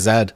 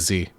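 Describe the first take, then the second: First: The letter is said the Canadian way. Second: The letter is said the American way. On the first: This is the form learned in Canada. "In Canada, we learn to say Z" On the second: This is the form used in the US. "So now I say Z, and also because it's brand spec for Nikon U S A"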